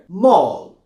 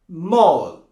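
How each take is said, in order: First: The vowel is narrow and rounded. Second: The same.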